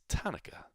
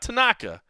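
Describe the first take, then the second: First: It is said in a way resembling Hanukkah. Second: It is said the usual way, unlike Hanukkah. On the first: The speaker calls it right. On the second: The speaker calls it wrong.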